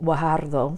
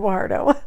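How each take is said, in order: First: The name is said without anglicizing it. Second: The name is said in an anglicized way. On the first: The speaker calls it right. "It's actually Guajardo" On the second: The speaker calls it wrong. "I whited it up there and just, just said Guajardo"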